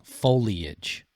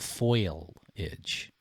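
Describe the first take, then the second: First: The first syllable sounds like foal. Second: The first syllable sounds like foil. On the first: The speaker calls it right. "now you got me saying it wrong" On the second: The speaker calls it wrong. "some people say it wrong and it's go foliage, like aluminum foil"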